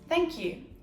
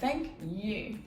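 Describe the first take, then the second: First: The stress falls on the word thank. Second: The stress falls on the word you. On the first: The speaker is thanking someone. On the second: The thanks is returned to the other person.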